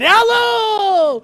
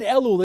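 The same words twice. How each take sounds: First: The word is said loudly and menacingly. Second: The word is said calmly and gently. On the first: The month brings judgment and punishment. "They always said Elul! With flames coming up on the side" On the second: The month is just a neutral date. "I never had a rabbi who ever said Elul"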